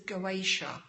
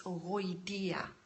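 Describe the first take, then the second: First: The word is said with an anglicized pronunciation. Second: The word is said with a non-anglicized pronunciation. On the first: The speaker calls it wrong. "the English pronunciation is the Goetia, but the pronunciation is actually wrong" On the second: The speaker calls it right. "It's Goitia"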